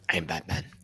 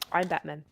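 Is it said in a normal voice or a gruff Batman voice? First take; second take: Batman voice; normal voice. First: It is said in a gruff Batman voice. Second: It is said in a plain, normal voice.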